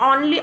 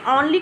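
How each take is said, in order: No difference in how they are said.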